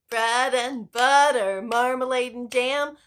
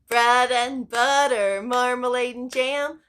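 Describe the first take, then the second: Both takes have the same delivery.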